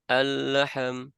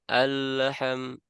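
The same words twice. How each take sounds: First: The L is voiced, releasing a short vowel echo. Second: The L is voiced, releasing a short vowel echo.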